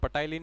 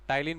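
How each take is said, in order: First: The word starts with a 'p' before the 't'. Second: The word starts with a 't' sound, no 'p'. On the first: The speaker calls it wrong. "पटाइलिन नहीं बोलते" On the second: The speaker calls it right. "इसमें पी silent होता है, टाइलिन बोलते हैं"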